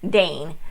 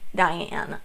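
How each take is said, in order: First: The name is said with one syllable. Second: The name is said with two syllables. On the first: This is how the name is officially pronounced. "I believe is how they pronounce it" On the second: This is how the reader hears it in her head. "I pronounce it Diane in my head"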